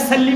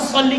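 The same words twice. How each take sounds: First: The s is plain and light. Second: The s is heavy and emphatic. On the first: Give consolation. The speaker calls it wrong. "हमने फसल्ली साद और सीन का फर्क नहीं किया" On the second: Pray. The speaker calls it right. "फसल्ली साद के साथ था"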